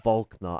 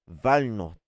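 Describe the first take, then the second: First: The K sound is clearly pronounced. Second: The K sound is left silent. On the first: The speaker calls it right. "actually, sorry" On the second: The speaker calls it wrong. "I'm muting the K"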